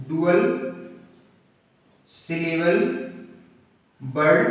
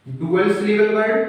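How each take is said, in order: First: "dual syllable word" word by word with long pauses; broken into parts. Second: Said in the usual way. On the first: Shown as a demonstration. Teacher dictating a term to students, "dual syllable word" word by word.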